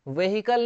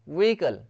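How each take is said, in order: First: An h sound is heard in the middle. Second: No h sound is heard in the middle. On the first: The speaker calls it wrong. "व्हीकल नहीं बोलते इसको" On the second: The speaker calls it right. "व्हीकल में एच silent है"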